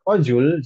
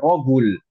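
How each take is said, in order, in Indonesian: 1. Kata ini diawali dengan bunyi J. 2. Kata ini diawali dengan bunyi G keras. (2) "sebagian orang Mesir bilangnya seperti itu"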